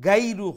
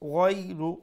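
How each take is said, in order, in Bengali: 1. প্রথম ব্যঞ্জনটি শক্ত করে বলা হয়, g-র মতো। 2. প্রথম ব্যঞ্জনটি নরম ও কোমল করে বলা হয়। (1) "গাইরু হইবা না" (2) "নরম করে উচ্চারণ হবো"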